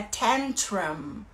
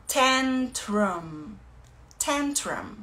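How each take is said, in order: First: Tantrum said slowly as TAN-trum; slow model pronunciation of tantrum; English pronunciation. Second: Tantrum repeated with rising then falling tune; teacher repeating tantrum for students; repeated model word. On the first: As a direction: say tantrum clearly, first syllable stressed. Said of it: "que a gente chama de birra, é tantrum". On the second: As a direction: drill the word tantrum twice. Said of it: "é tantrum". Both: Shown as a demonstration.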